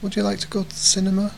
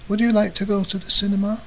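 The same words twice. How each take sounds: First: The words 'you' and 'to' are shortened and blurred. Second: The words 'you' and 'to' are fully pronounced.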